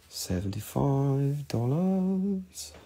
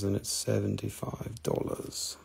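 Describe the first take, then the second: First: Stretched out slowly for emphasis; slow drawn-out. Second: Said in the usual way. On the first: Shown as a demonstration. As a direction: draw every syllable out.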